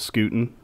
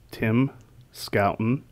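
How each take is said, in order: First: The first syllable sounds like scoot. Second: The first syllable sounds like scout. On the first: The speaker calls it wrong. "Also incorrectly pronounced Scootin" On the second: The speaker calls it right. "my name is two English words pushed together, Scout and ten"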